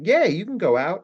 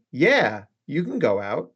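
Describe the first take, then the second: First: Higher, lilting YEAH running straight into GO OUT; partner's easy permission. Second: YEAH falls and stands apart from GO OUT; partner's loaded permission. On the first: Partner saying you can go out, higher, lilting permission. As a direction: say YEAH and GO OUT in one bouncy, rising line. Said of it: "It's the difference between your partner saying". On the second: Partner not really meaning the permission, loaded falling YEAH. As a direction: drop YEAH, pause, then a reserved GO OUT. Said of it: "but it is not the same sentence". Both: Shown as a demonstration.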